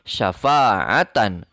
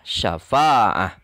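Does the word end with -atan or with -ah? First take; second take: -atan; -ah. First: The word ends with a full -atan ending. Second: The word ends with a soft -ah ending. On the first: This is how the word is written. "Ditulisnya syafa'atan" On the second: This is how the word is read at a stop. "Dibacanya syafa'ah"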